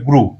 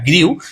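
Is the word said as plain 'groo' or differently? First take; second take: groo; differently. First: The word is said as plain 'groo'. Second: The word is not said as plain 'groo'. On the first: The speaker calls it right. "কিন্তু উচ্চারণটা হবে গ্রু" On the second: The speaker calls it wrong. "এই শব্দটিকে তোমরা অনেকে বলো"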